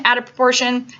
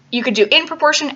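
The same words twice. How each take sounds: First: Teacher answering "in" with "out"; stress on out. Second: "in" lifted and leaned on; teacher contrasting "in" with "out"; stress on in. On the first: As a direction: punch "out" as the contrast to "in". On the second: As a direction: lean on "in" to set it against "out". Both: Shown as a demonstration.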